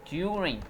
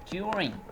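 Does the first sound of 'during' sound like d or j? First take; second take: j; j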